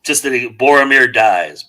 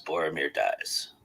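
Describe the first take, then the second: First: Said in the usual way. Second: Lower, softer, slow, deadpan "Boromir dies."; deadpan flat. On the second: Shown as a demonstration. Imitating a flat AI narrator announcing Boromir's death, lower, softer, slow.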